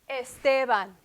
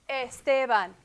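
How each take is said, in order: The two takes are said the same way.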